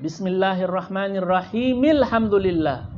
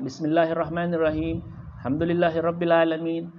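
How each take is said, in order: First: It runs straight on without a pause. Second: It stops with a pause between verses. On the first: "menyambungkan dengan kalimat akhir basmalah dengan kalimat alhamdulillah"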